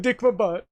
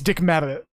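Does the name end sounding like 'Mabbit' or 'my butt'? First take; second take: my butt; Mabbit. First: The ending is said as two words, 'my butt'. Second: The ending is said as one word, 'Mabbit'. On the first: The name is twisted into a joke. The speaker calls it wrong. "he deliberately mispronounced it just for the giggles" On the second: The name is given as it really is. The speaker calls it right. "saying it uh the right way"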